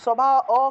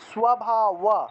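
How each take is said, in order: First: The word ends with a plain 'o' vowel. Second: The word ends with a 'wa' sound. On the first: The speaker calls it wrong. "অ কেন হবে" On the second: The speaker calls it right. "ওয়া ওয়া ওয়া"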